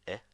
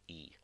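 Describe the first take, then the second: First: The vowel is short. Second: The vowel is long. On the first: "Short I" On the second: "long I"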